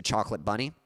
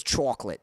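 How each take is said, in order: First: Said in the usual way. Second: Imitated New York "chocolate"; New York accent. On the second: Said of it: "making fun of her accent".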